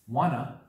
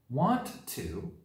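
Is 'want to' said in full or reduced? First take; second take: reduced; full. First: The words are merged into a short 'wanna'. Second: Both words are said in full.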